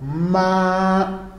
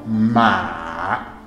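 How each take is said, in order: First: The pitch stays high and level. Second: The pitch dips low, then rises. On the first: "No primeiro tom" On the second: "E no terceiro tom"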